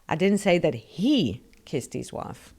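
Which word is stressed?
he. The stress falls on the word he. Someone else kissed the wife. "So somebody kissed his wife, but it wasn't him"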